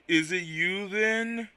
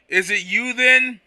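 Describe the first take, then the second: First: It is said in a slow Quagsire voice. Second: It is said in a normal reading voice.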